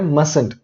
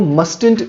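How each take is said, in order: First: The t after the s is silent. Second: The t after the s is pronounced. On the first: The speaker calls it right. "इसका होता है मसंट" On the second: The speaker calls it wrong. "इसको मस्टेंट नहीं कहना है"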